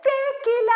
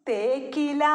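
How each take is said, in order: First: Model word. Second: Put-on children's echo. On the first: Shown as a demonstration. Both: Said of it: "തേക്കിന്റെ ഇലയാണ്".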